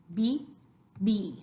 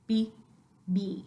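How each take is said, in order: The two takes are said the same way.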